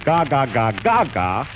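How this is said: The words are said expressively, with feeling. The speaker calls it right. "when he says gaga, gaga, gaga, he means it"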